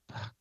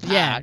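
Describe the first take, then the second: First: A short, plain single syllable. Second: A drawn-out southern drawl stretched into two syllables. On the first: "It's a syllable" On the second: "I can do my southern accent and make it like Puck. That way there's two syllables"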